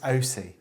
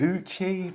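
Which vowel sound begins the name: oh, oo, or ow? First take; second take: oh; oo. First: The name begins with an 'oh' sound. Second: The name begins with an 'oo' sound. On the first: The speaker calls it right. "apparently it is O C. That's how you pronounce it" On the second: The speaker calls it wrong. "I thought it was"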